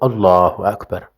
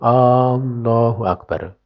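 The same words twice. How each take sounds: First: The opening vowel is short, with no question. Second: The opening vowel is lengthened like a question. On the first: It states that God is great. The speaker calls it right. "Harusnya Allahu Akbar" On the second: It asks whether God is great. The speaker calls it wrong. "tidak boleh Allahu Akbar karena hamzahnya jadi istifham"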